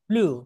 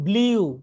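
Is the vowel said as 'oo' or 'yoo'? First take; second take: oo; yoo. First: The vowel is a plain 'oo' without glide. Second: The vowel has a y-glide, like 'yoo'. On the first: The speaker calls it right. "কিন্তু উচ্চারণ হবে কি?" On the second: The speaker calls it wrong. "সারা জীবন বলতাম ব্লিউ"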